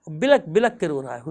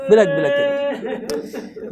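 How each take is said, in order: First: Said in the usual way. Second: Slow, wailing بلک بلک, as if sobbing along; tearful, drawn out. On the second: A narrator's reading. Preacher to mourners, lamenting Hurr's weeping.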